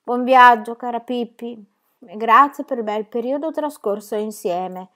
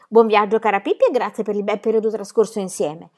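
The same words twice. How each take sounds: First: Dutiful, slow recitation of "Buon viaggio, cara Pippi"; slow, careful farewell by rote; obedient recital. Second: Said in the usual way. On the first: Acted. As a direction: recite it like well-behaved children. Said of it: "dissero Tommy ed Annika obbedienti". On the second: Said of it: "Sentiamo se siete capaci di dirmi".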